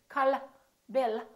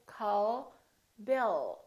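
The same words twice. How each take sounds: First: The final L is released quickly. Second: The final L is held long and soft. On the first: The speaker calls it wrong. "We don't say" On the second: The speaker calls it right. "We say call Bill. So the tongue is relaxed and it touches right behind the upper teeth and it stays there"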